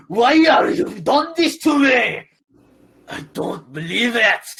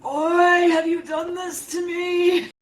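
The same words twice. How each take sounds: First: Slow, high, loud Irish wail; Irish accent demo. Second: Put-on slow, shouted lament in a thick Irish accent. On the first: Shown as a demonstration. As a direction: show the Irish accent line slowly. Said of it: "say what you wanna say, and I'll do it for you". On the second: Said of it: "thick Irish accent".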